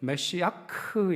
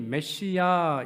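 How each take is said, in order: First: The word ends with a final k-like consonant. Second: The word ends on an open vowel. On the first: "원래 히브리식 발음은 메시아크 이렇게 되어 있습니다" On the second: "흔히 메시아 이렇게 발음하죠. 이건 이제 영어식 발음인데"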